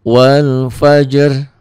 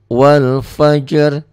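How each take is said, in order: Both takes have the same delivery.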